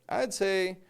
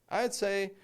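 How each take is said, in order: Both takes have the same delivery.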